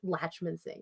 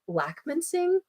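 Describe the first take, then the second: First: The first syllable ends with a 'ch' sound. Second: The first syllable ends with a 'k' sound. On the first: "my last name is pronounced Latchmansing" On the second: "People say it like Lackmansing, which is fine too"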